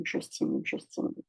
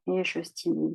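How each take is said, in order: First: Je stimule trailing off into a breathy whisper; fading to a whisper. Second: Said in the usual way. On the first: Shown as a demonstration. A coach tapping along, trailing off into a whisper. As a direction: let je stimule fade to a whisper while tapping.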